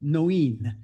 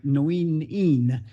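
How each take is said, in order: First: Noeen said as NO-een in careful Irish Gaelic; Irish Gaelic name. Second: Noeen Een said slowly, with EEN drawn out at the end; diminutive form. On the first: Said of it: "so I won't get it quite right". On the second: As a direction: stretch Noeen Een, landing on the final EEN. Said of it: "the diminutive form". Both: Shown as a demonstration.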